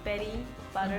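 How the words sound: The t sounds are said like soft d sounds. "The American, you go"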